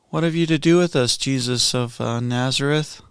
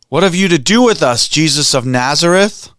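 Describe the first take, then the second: First: It is said in a casual, offhand voice. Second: It is cried out in a guttural voice.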